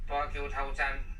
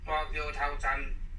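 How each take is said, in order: The two takes are said the same way.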